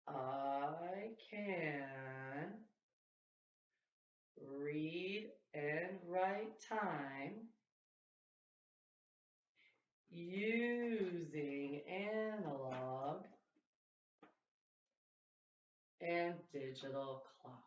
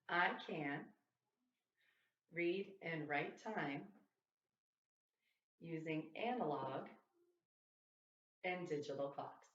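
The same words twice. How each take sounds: First: It is said at a very slow speed. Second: It is said at a normal speed.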